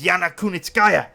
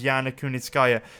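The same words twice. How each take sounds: First: The name is said with a Japanese accent. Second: The name is said in a plain accent.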